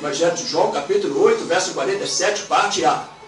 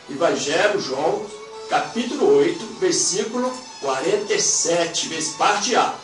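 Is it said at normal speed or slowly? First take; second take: normal speed; slowly. First: It is said at normal speed. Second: It is said very slowly.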